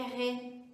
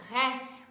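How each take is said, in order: First: The vowel is closed, as in French. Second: The vowel is open, as in Portuguese. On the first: "mas não é o caso do francês, eu vou dizer que é ré" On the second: "se eu tiver um R E acento agudo no português, eu vou dizer que é ré"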